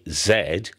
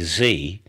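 First: The letter is said as zed, British style. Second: The letter is said as zee, American style.

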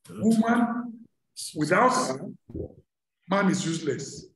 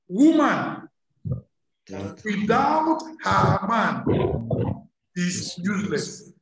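First: There is a pause after her. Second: There is a pause after man.

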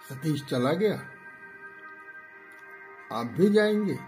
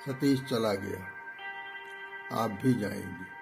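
First: The pitch rises at the end. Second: The pitch stays level at the end. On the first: "आरोही। जैसे प्रश्न है" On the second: "सम"

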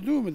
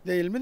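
First: It is said in a reduced form, düğü mü. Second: It is said as two clear words, değil mi. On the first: This is the form the locals use. "Öyle düğü mü derler" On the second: This is the form the locals do not use. "Değil mi demezler"

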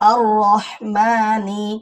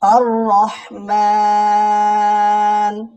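First: It ends with a short 'i' vowel. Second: It drops the vowel and stretches 'maa' long. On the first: The reading continues without stopping. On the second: The reader stops at this word.

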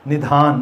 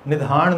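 First: The final n is dental. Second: The final n is retroflex. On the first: The speaker calls it right. "ਨੰਨਾ" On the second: The speaker calls it wrong. "ਨਹੀਂ"

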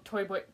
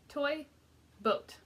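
First: The words are said fast and rushed. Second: The words are said slowly and carefully. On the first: "say it 10 times in a row as fast as you can" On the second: "I'll show you how"

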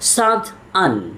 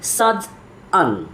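Both takes have the same delivery.

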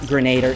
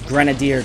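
First: The word ends with a short 'der' sound. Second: The word ends with a long 'deer' sound. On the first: The speaker calls it wrong. "It's not grenader" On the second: The speaker calls it right. "it's grenadier, guys"

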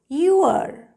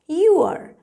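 First: The words are joined into one short syllable. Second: The words are joined into one short syllable.

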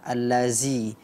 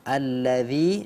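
First: The middle consonant is a buzzing 'z' sound. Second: The middle consonant is a soft 'dh' sound.

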